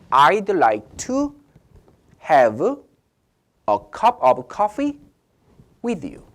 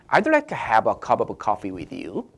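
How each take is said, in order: First: It is said slowly. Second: It is said fast.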